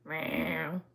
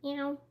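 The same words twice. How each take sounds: First: It is a rough, raspy smoker's meow. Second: It is a clear, ordinary meow.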